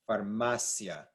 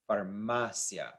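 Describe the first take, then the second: The two takes are said the same way.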